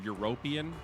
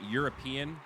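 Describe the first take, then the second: First: It uses an unusual, non-American pronunciation. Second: It uses the plain American pronunciation. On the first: "as a joke" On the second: "like a proper American"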